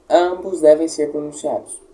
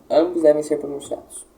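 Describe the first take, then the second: No difference in how they are said.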